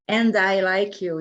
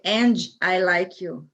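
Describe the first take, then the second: First: The D in 'and' is light and soft. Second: The D in 'and' is strong and clear. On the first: "You don't say like" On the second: "You say ... and you hear it"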